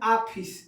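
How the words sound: It is said the eastern Uttar Pradesh way. The speaker calls it wrong. "पूर्वी उत्तर प्रदेश में ... हम लोग बोलते हैं आफिस"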